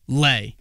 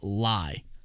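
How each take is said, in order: First: The vowel rhymes with 'day'. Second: The vowel rhymes with 'die'. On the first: This follows the player's official bio. "Lay. L A Y" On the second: This is how the announcer said it. "I think Goodell went lie"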